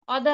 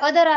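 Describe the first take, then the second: First: The first vowel is an open 'aw' sound. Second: The first vowel is a short 'uh' sound. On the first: The speaker calls it wrong. "तर ऑदर नाही हे" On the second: The speaker calls it right. "याला अदर असं वाचायचं"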